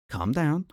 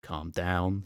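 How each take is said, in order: First: Much higher and louder, begging; Calm down squealed in panic; a frightened man pleading with the monster to calm down; panicked plea. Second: Put-on Calm down thrown back in a Scottish accent; mock his plea in a Scottish accent; the monster mocking the man's plea in a Scottish accent; mocking Scottish echo. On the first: Acted. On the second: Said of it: "he says".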